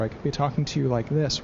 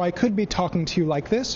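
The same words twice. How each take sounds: First: The consonants are slurred and the words mumbled. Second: The consonants are crisp and clearly articulated. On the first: The speaker calls it wrong. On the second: The speaker calls it right.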